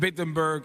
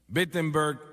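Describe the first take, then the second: First: The name begins with a W sound. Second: The name begins with a B sound. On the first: The speaker calls it wrong. "empieza con una W" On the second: The speaker calls it right. "se pronuncia como una B"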